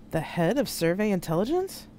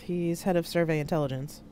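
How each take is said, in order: First: Higher, incredulous question with rising end; stunned question, lifting sharply at the end; stammered disbelief. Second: Said in the usual way. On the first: A narrator's reading. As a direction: echo it back, taken aback. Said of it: "Georg stammered out".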